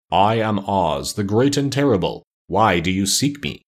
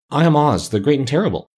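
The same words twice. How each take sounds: First: Slow, solemn, drawn-out pronouncement. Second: Higher, timid little-man voice; trembling voice. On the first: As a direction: intone it slowly like an unseen great wizard. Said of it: "they heard a solemn voice". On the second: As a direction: announce it high and nervously, lightly acted. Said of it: "said the little man in a trembling voice". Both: A narrator's reading.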